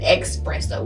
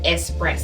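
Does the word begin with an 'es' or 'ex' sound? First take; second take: ex; es. First: The word begins with an 'ex' sound. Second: The word begins with an 'es' sound. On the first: "with an E X" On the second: "instead of"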